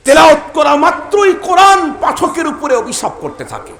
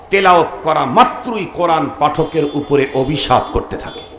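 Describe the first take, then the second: First: Repeated higher and louder, hammering it home; loud warning. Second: Said in the usual way. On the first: Acted. Preacher warning careless reciters of the Quran, shouting. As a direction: call out the warning at full force.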